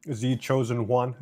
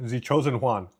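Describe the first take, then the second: First: "Juan" said as English "wun", slow, rising; testing a name. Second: "Juan" said Spanish-style "hwan", falling; Spanish pronunciation. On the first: Streamer tries reading a viewer's name, slow English pronunciation. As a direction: sound out the name carefully, English style. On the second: Streamer corrects a viewer's name, Spanish pronunciation. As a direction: settle on the Spanish way to say it. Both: Shown as a demonstration. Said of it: "repeats name trying pronunciations".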